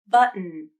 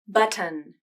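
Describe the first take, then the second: First: The T is a glottal stop before syllabic N. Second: The T is released, followed by a schwa. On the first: "The first transcription uses a stop T and a syllabic N in the final syllable" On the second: "The second transcription uses a true T, the schwa vowel, and then a normal N consonant"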